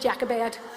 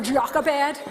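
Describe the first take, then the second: First: The name is said with a Northern Irish pronunciation. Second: The name is said with a different, non-local pronunciation. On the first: "the Northern Ireland version"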